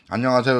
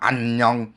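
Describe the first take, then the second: First: The syllables are joined smoothly without breaks. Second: Each syllable is said separately, with breaks.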